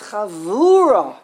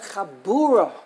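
First: The middle consonant is a soft v. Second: The middle consonant is a hard b. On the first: The speaker calls it right. "it's whose chavura do you attend?" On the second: The speaker calls it wrong. "it's not a chabura"

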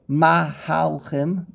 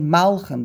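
First: A full vowel follows the h, giving three syllables. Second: The h is nearly silent, giving two syllables. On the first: The speaker calls it wrong. "You don't say mahalchim" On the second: The speaker calls it right. "You say malchim. The hay is a shva"

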